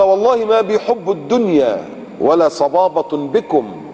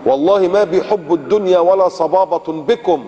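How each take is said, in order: First: Slow quote. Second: Slow, weighty recital of the companion's words; slow and grave, a sermon quote; slow recited quote. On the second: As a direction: lay each word down slowly like a solemn vow. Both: Shown as a demonstration.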